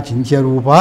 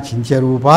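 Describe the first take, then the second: Both takes have the same delivery.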